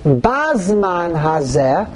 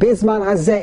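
First: The first word has an 'a' vowel. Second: The first word has an 'i' vowel. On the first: It refers to this generation. "with a Patach" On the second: It refers to this calendar date. "if you read it with a chirik"

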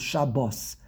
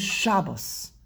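First: The stress is on the last syllable. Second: The stress is on the first syllable. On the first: This is the Hebrew form. "In Hebrew, the emphasis is on the last syllable" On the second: This is the Yiddish form. "in Yiddish, you say Shabbos"

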